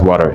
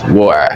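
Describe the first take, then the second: First: It is said with an American accent. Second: It is said with a British accent. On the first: "I just very easily want to pronounce it as water" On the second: "because that's the British"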